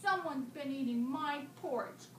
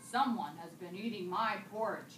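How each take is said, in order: First: It is said in a small, high voice. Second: It is said in a big, deep voice. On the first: A small baby character is speaking. "in a small voice" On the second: A large father character is speaking. "in a great big father bear voice"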